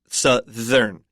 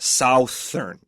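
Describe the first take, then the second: First: The first vowel is a short 'uh' sound. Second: The first vowel is an 'ow' sound. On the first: The speaker calls it right. "the O U has like a short U sound" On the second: The speaker calls it wrong.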